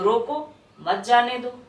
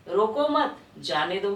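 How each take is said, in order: First: Slow रोको, short break, then मत जाने दो together; pause after रोको. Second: रोको मत in one go, break, then जाने दो; pause after मत. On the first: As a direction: keep मत joined to जाने दो, pausing before it. (रोको के बाद विराम) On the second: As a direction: keep मत joined to रोको, pausing after it. (मत के बाद विराम) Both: Shown as a demonstration. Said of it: "आगे पीछे आपका विराम का प्रयोग".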